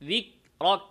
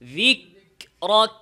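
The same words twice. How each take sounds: First: The k has no audible puff of air. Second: The k has an audible puff of air. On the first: The speaker calls it wrong. "অনেকেই সাকিন অবস্থায় হামসটা করে না" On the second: The speaker calls it right. "কি করতে হবে"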